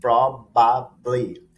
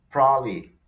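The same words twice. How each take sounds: First: It is said at a normal, careful speed. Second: It is said very fast and heavily reduced.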